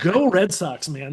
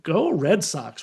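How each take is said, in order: First: "Go Red Sox" said brightly and meant; sincere cheer. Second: Slow, grudging go Red Sox; reluctant cheer. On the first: Real, not acted. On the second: Retold or imitated. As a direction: drag out "Go Red Sox" like it hurts to say. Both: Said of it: "a thing I never thought I would say".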